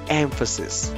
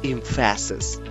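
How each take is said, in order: First: The stress falls on the first syllable. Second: The stress falls on the second syllable. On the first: The speaker calls it right. "the emphasis is on the first syllable. We pronounce the word as emphasis" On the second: The speaker calls it wrong. "instead of saying"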